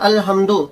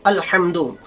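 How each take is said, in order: First: The h sound is soft, from upper throat. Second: The h sound is deep, from mid-throat. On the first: The heat of fire. The speaker calls it wrong. "यानी अपनी आवाज को नर्म कर ले, बारीक पड़े" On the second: All praise. The speaker calls it right. "ये हा की आवाज हमारे हलक के दरमियान से निकलती है"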